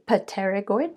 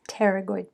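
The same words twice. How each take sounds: First: The word begins with an audible P sound. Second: The word begins with a T sound, no P. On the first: The speaker calls it wrong. "The P is silent, so you don't say pterygoid" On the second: The speaker calls it right. "but it's pterygoid plates"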